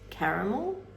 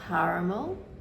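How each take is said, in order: First: It is said the Australian way. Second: It is said the American way.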